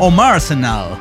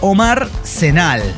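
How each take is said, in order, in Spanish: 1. Las palabras se unen para sonar como Arsenal. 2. El nombre se dice como dos palabras separadas.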